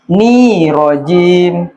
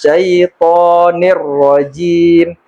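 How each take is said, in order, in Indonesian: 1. Kedua kata dipisah tanpa disambung. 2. Kedua kata menyambung dengan huruf r yang ganda. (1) "Kebanyakan yang salah dipisah lagi tuh" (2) "Cara bacanya"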